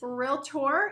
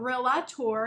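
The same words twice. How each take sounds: First: It is said with two syllables, real-tor. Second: It is said with an extra vowel, real-a-tor. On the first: The speaker calls it right. "It's realtor" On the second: The speaker calls it wrong. "It's not realtor. Do you see an A in between?"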